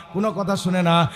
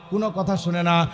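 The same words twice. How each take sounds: The two takes are said the same way.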